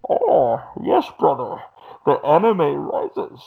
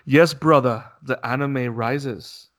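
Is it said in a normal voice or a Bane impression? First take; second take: Bane impression; normal voice. First: It is said in a Bane impression voice. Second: It is said in his normal voice.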